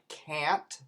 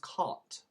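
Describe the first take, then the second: First: It has a flat front 'a' vowel. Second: It has an open back 'ah' vowel. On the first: "contractions like can't" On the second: "becomes can't"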